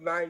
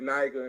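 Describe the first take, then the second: First: The g sounds like a j. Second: The g is a hard g sound. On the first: Someone insists the word is something different. The speaker calls it wrong. "they say, oh, no, it's Niger" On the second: This is how the word is really said. The speaker calls it right. "you would say the word Niger"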